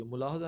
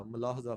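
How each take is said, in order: First: ملاحظہ with short u, mu-lahza; wrong pronunciation. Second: ملاحظہ with short a, ma-lahza; correct pronunciation. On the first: Teacher rules out a misreading, deliberate mispronunciation. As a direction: open ملاحظہ with mu-. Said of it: "ملاحظہ نہیں ہوتا". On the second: Teacher corrects the misreading, right pronunciation. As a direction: open ملاحظہ with ma-. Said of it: "ملاحظہ نہیں ہوتا، ملاحظہ فرمائیے". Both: Shown as a demonstration.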